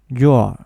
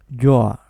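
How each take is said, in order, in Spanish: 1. Una sílaba, con el sonido del verbo débil. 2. Una sílaba, con el sonido del verbo débil.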